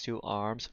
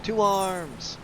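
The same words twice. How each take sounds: First: A soft mocking echo of the battle cry, rising; quietly mock the hero's rallying call; imitando o NPC, em tom baixo. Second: A higher, ringing call to arms; rally the troops, head up; grito de guerra do NPC. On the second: Acted. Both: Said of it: "I love how he says".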